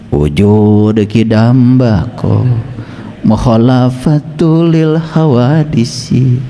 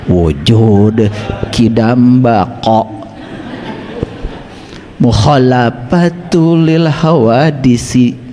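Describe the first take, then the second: First: The Arabic consonants are articulated loosely. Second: The Arabic consonants are articulated carefully. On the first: The speaker calls it wrong. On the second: The speaker calls it right.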